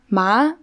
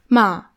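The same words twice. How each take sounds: First: The pitch rises like a question. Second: The pitch falls like a statement. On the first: "dann so als Frage quasi" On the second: "und dann nochmal so nach unten"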